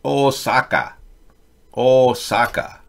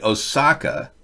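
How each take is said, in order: First: Osaka said evenly, no stressed syllable; correct Osaka. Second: OsAka with stressed middle syllable, English style; wrong Osaka. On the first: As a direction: repeat Osaka flat Japanese style, slowly. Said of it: "Instead of Osaka". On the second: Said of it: "mispronouncing one of your cities". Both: Shown as a demonstration.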